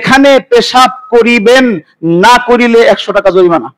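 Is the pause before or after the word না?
before. The pause comes before না.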